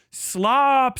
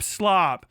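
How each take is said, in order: First: Slop thrown out high and loud; emphatic slop. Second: Said in the usual way. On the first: Acted. Ranting about YouTube slop, he spits out Slop high and loud. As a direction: spit out Slop like an insult.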